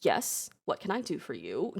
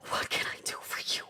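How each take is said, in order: First: Said in the usual way. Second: Soft, quick, nearly whispered question; breathy retake. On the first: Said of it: "and Faye are just like". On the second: Acted. Monarch just reunited with son, breathy question. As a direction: ask it again on a whispery breath.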